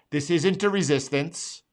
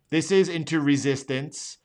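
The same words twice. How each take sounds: The two takes are said the same way.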